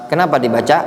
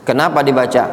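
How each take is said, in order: The two takes are said the same way.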